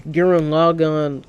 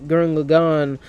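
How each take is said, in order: Both takes have the same delivery.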